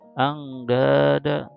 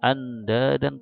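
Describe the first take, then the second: First: The n sound is hidden and nasal. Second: The n sound is pronounced clearly. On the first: The speaker calls it right. "tapi angdada" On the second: The speaker calls it wrong. "Bukan anda dan"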